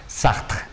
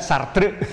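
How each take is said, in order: First: It is said with a French accent. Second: It is said with a Sundanese accent.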